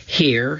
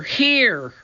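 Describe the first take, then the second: First: Said in the usual way. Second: Calling out. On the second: A narrator's reading. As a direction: call down from above. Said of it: "Annie's voice came from above".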